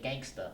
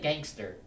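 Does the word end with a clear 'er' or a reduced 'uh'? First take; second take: reduced uh; clear er. First: The word ends with a reduced 'uh' sound. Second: The word ends with a clear 'er' sound. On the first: The slang form of the word. "They say gangsta. It's slang" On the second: The standard form of the word. "They don't say gangster"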